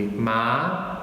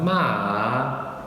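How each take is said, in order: First: The pitch rises through the syllable. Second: The pitch dips down then rises again. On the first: "there's a rising tone" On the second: "starts high, dips down, and then goes back up"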